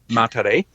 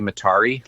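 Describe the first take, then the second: First: The name is said unlike Atari. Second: The name is said to sound like Atari. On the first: The speaker calls it right. "but Matare" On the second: The speaker calls it wrong. "when I say Matari, like uh, like a game console"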